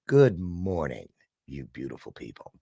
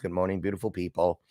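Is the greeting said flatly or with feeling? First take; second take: with feeling; flatly. First: It is said warmly, with real feeling. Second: It is said flatly, by rote.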